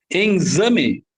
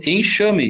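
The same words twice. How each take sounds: First: "exame" for enxame, with a z sound; wrong pronunciation demo. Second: "enxame" with a sh sound; correct pronunciation demo. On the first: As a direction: say "exame" as "enzame". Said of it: "Eu não falo exame". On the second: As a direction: say "enxame" as "enshame". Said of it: "Eu falo enxame". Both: Shown as a demonstration.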